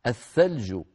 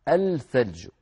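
First: "الثلج" as ath-thalju, L silent, TH doubled; assimilated lam. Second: "الثلج" as al-thalju, L clearly sounded; unassimilated lam. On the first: Teacher giving a sun-letter example, "الثلج" pronounced ath-thalju. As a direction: say "الثلج" with the lam merged into a long TH. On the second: Teacher showing what we don't say, "الثلج" pronounced al-thalju. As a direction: say "الثلج" wrongly, holding an L before the TH. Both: Shown as a demonstration. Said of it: "ولا نقول".

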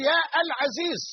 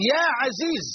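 First: يا العزيز pitched up with a separate "al"; wrong article kept. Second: يا عزيز joined as "yaa azeez"; article dropped. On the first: Teacher showing what not to say, article sounded in يا العزيز. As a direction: break after يا, then sound "al-azeez". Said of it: "لا تقول". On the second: Teacher giving the correct vocative, smooth يا عزيز without "al". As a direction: go straight from يا into عزيز. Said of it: "وإنما تقول". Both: Shown as a demonstration.

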